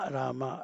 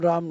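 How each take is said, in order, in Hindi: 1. नाम अंत में 'a' स्वर के साथ खत्म होता है। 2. नाम व्यंजन पर खत्म होता है, अंत में कोई स्वर नहीं है। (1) "रामा रामा" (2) "राम राम नहीं बोलना है"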